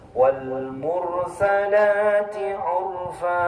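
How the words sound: Mursalati runs straight into urfa. The speaker calls it right. "Yang benar dirangkai"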